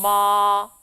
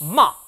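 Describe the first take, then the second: First: The pitch stays high and long. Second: The first sound is struck sharply. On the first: "일성은 높은 음을 길게 이어줍니다" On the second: "사성은요. 첫 음을 탁 쳐주는 느낌"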